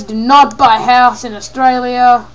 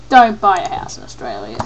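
First: "Do not" spelled out firmly and louder; emphatic warning. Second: Said in the usual way. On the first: Real, not acted. Advising against Australian houses, emphatic "Do not". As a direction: hit "not" hard, loud firm advice.

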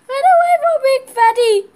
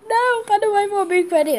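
First: High, loud warning shout. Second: High, loud insistent call; urgent call. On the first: Kid warns the team off Big Fatty, shouting. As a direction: yell at them to flee. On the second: Kid repeats the warning, still loud but calmer. Fleeing a big enemy. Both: Real, not acted.

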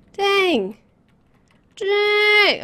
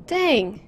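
First: High, drawn-out Dang; rising playful dang. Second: Said in the usual way. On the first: Real, not acted. Player repeats Dang ever higher for fun. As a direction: stretch Dang long and high. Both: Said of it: "Okay, I'll stop".

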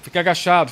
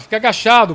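First: Louder, higher urgent command; urgent call. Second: Much higher, louder repeated command; urgent shout. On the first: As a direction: call it out to a teammate. Urgent instruction in firefight. (ordem urgente) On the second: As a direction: yell it, more urgent. (grito urgente) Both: Real, not acted.

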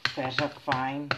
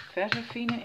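First: "Versafine" op z'n Engels, eindigend op "fain"; Engelse uitspraak. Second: "Versafine" op z'n Nederlands, eindigend op "fiene"; Nederlandse uitspraak. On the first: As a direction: spreek "Versafine" langzaam uit, rijmend op "fine". ("Versafine" uitgesproken als "ver-sa-fain") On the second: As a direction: spreek "Versafine" uit met een ie-klank en hoorbare slot-e. ("Versafine" uitgesproken als "ver-za-fie-ne") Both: Shown as a demonstration. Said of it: "Maar hoe je het zeggen".

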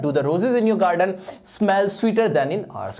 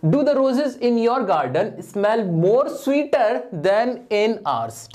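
First: Slightly slow, clear reading of the fixed sentence; corrected sentence read out. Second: Slow, deliberate reading of the faulty sentence; wrong sentence read slowly. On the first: Teacher reads the corrected exam sentence back to students. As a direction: read the corrected version out steadily. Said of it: "सिर्फ इसको बनाना था sweater". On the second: Teacher slowly reads the wrong exam sentence to students. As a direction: read the wrong version out word by word. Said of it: "ये तो बहुत ही मुंह से ही नहीं बोला जा रहा". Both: Shown as a demonstration.

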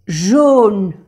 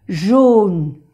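First: "Jaune" whispered, no voice, falling. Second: Said in the usual way. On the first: Shown as a demonstration. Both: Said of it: "model word".

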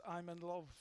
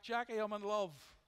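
First: Said in the usual way. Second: Louder, calling across a shop; joyful called-out greeting; retold shout back. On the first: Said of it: "that's just the way it is". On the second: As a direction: call it out happily to a friend across the store. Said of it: "I shouts back".

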